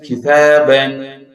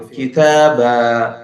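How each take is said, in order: First: The word ends with an n sound. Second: The word ends with a long a vowel. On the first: The reciter continues without stopping on the word. "it turns as N sound" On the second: The reciter stops on the word. "if we do pause here and we do waqf here, Nun Sakin voice is gone"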